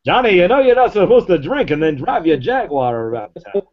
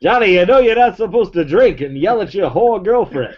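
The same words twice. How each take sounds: First: Put-on old-timey scolding announcer again, high; vintage radio narrator voice; 1930s newsreel voice. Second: Put-on old-timey scolding announcer, high; hammed-up vintage narrator voice; 1930s newsreel voice. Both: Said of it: "That's like the nineteen thirties voice".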